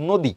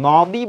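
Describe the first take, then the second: First: নদী with the first vowel as ও, "nodi"; correct pronunciation. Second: নদী with an open অ, like "nawdi"; wrong pronunciation. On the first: Teacher gives the correct ও-sounding নদী. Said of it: "বলছো কি?". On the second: Teacher shows the wrong open-অ নদী. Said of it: "এখানে উচ্চারণের সময় কিন্তু নদী বলো নাই". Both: Shown as a demonstration.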